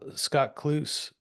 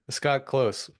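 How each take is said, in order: First: The surname's vowel is an OO sound. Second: The surname's vowel is a long O. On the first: The speaker calls it wrong. "Ah, see, I did it" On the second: The speaker calls it right. "It's close"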